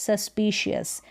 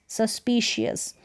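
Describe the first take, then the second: Both takes have the same delivery.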